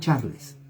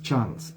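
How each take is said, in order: First: The E at the end is pronounced. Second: The E at the end is silent. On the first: The speaker calls it wrong. "no Charles" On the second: The speaker calls it right. "la E no se pronuncia. Por eso es Charles"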